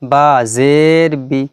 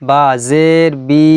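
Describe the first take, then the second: First: The final vowel is cut off short. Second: The final vowel is drawn out long. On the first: The speaker calls it right. "এরকমভাবে পড়তে হবে।" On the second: The speaker calls it wrong. "এরকম কিন্তু হবে না।"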